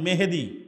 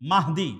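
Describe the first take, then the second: First: The name is said as Mehedi, with e vowels. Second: The name is said as Mahdi, with two syllables. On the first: The speaker calls it wrong. "এই মেহেদি কিন্তু সঠিক উচ্চারণ নয়" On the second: The speaker calls it right.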